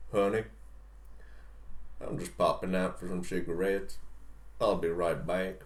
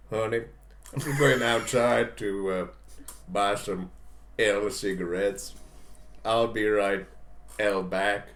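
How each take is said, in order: First: Low Southern husband slipping out; husband's casual Southern goodbye; Southern accent. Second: Slow, halting mock Spanish accent; badly faked Spanish accent, drawn out. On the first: Acted. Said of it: "have to use a Southern accent". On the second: Shown as a demonstration. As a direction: fake a Spanish accent, picking through the words. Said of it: "I'll do a Spanish accent".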